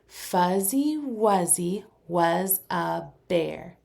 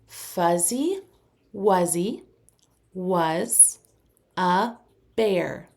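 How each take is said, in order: First: It is said a little faster. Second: It is said at a moderate speed.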